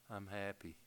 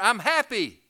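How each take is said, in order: First: It is said flatly, without lift or smile. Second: It is said brightly, smiling, with raised voice. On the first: The speaker calls it wrong. "No, it's not I'm happy" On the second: The speaker calls it right. "you get your cheekbones up here, raise your voice just a little bit, and it sounds so much better"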